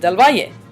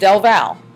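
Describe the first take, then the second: First: The name ends with a final vowel syllable. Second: The name ends on a plain L sound. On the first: This is how professors later said the name. The speaker calls it right. "that is the correct pronunciation of my last name" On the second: This is how the name was said in school. The speaker calls it wrong. "it was pronounced as Del Val"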